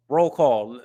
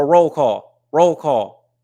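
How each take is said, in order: First: Said in the usual way. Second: Shouted call-out to the chat, louder; loud roll call. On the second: Real, not acted. Streamer hyping his live chat into a loud roll call. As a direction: call the roll like a hype man.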